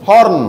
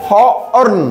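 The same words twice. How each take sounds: First: হর্ন as one short syllable, horn; blended word. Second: হর্ন stretched in two pieces, ho-orn; sounded out. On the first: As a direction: say হর্ন whole, no break. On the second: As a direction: break হর্ন before its 'orn'. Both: Shown as a demonstration. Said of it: "ও আর দিয়ে উচ্চারণ হবে অর".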